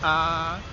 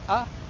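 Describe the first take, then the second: First: The vowel is long. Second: The vowel is short. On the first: "if you put a line above them, they become longer" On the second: "the short vowels in Māori are a"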